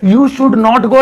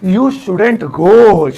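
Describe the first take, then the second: First: Should and not are said as full words. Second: Should and not merge into one word. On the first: "नहीं बोलोगे तो ऐसा नहीं है कि गलत हो जाएगा" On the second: "शुड नॉट को मिलाकर अगर बोलेंगे तो स्टाइल लगेगा"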